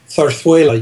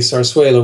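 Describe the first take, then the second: First: The z sounds are pronounced like th. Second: The z sounds are pronounced like s. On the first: This is how it is said in Spain. "In Castilian Spanish, of course, it's pronounced zarzuela. You lisp the Z's" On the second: This is how it is said in most of the Spanish-speaking world. "almost nowhere else in the Spanish-speaking world are the Z's lisped"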